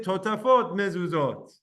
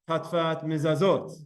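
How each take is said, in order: First: The words are said with full, normal vowels. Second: The words are said with clipped, shortened vowels.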